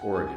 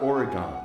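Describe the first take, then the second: First: The last syllable sounds like 'gin'. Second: The last syllable sounds like 'gone'. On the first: It sounds like a local. The speaker calls it right. "it's Oregon ... It's like O R E G I N" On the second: It marks the speaker as an out-of-towner. The speaker calls it wrong. "it's not Oregon ... not O N"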